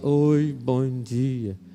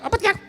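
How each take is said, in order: First: It is said slowly, dragged out. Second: It is said fast, sped up.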